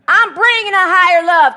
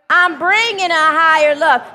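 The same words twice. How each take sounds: First: It is said with sassy attitude. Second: It is said plainly, without attitude.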